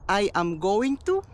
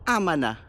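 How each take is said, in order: First: Every word is said fully and separately. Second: The words are blended into a short reduced form.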